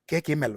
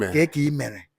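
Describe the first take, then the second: First: The last word is said with an l sound. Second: The last word is said with an r sound. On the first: This is a form used in parts of Anambra. "some Anambra part will say" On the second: This is the Central Igbo form. "Central Igbo says"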